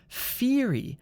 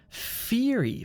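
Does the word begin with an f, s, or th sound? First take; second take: f; f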